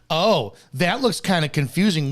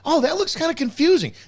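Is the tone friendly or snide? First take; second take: snide; friendly. First: It sounds snide and mocking. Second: It sounds friendly and sincere. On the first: The comment is read as an attack. "how I read it in my head is" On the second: The comment was meant innocently. "When you said"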